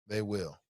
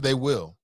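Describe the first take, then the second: First: Quiet repeated agreement; soft echo. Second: Said in the usual way. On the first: Real, not acted. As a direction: drop to a murmur on the repeat. Quiet echo of the same words.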